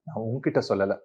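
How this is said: The stress falls on the middle word. I told someone else, not you. "உங்ககிட்ட stress கொடுத்தேன்னா"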